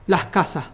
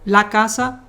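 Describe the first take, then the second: First: "las casas" with both final S sounds dropped; Caribbean Spanish "las casas", the plural endings left silent. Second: Said in the usual way. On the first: Shown as a demonstration. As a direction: say "las casas" as "lah casa". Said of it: "we don't pronounce the S". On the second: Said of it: "if you don't use the article".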